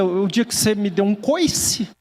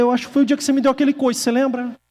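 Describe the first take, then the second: First: Slow retort, "coice" stretched upward; unspoken retort. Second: Quick, high-pitched comeback; rushed imagined retort. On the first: Preacher's thought to a rude acquaintance, drawn-out retort. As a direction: draw out the imagined comeback. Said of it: "só pensei". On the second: Preacher imagining his reply about the kick, rushed retort. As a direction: rattle off the imagined accusation. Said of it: "mas não falei isso, só pensei". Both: Retold or imitated.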